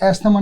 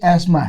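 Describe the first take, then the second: First: A 'th' sound is pronounced before the m. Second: No 'th' sound; s goes straight to m. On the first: The speaker calls it wrong. "इसकी pronunciation एस्थमा नहीं" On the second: The speaker calls it right. "एस्मा है basically"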